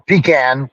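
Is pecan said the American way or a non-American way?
non-American. The word is said with a non-American pronunciation. "We call it pecan"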